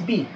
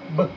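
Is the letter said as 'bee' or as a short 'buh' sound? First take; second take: bee; buh. First: The letter is said as its full name 'bee'. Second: The letter is said as a short 'buh' sound. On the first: This is what the letter is called. "The name is B" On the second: This is the sound the letter makes in words. "But the sound is, ano yung sound niya?"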